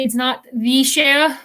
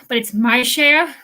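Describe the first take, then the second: First: "the share" said slowly, stressing "the"; contrast on the. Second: "my share" said slowly, with "my" punched; stress on my. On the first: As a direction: lean on "the" in "the share" as the wrong one. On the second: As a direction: lean on "my" in "my share" to claim the name. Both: Shown as a demonstration. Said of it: "that's how I'm saying it now".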